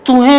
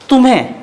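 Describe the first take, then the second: First: The nasal is only a nasalized vowel. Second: The nasal is a full m sound. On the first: The speaker calls it wrong. "ये कोई word नहीं है, बिल्कुल गलत है।" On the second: The speaker calls it right. "इसका शुद्ध रूप तुम्हें बोलना पड़ेगा"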